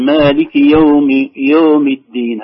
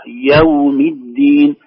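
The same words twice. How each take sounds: First: "يوم" rounded to "yom"; slow, loud at first, round the vowel of "يوم"; leaning to damma. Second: "يوم" opened firmly as "yaw"; slow, wide a on the ي of "يوم الدين"; strong fatha. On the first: Retold or imitated. Teacher showing the unopened ya, "yom" leaning toward u. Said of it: "ستميل إلى الضم". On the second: Shown as a demonstration. Teacher showing the remedy, strongly opened "yawmi d-din". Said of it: "فتحة الياء بقوة".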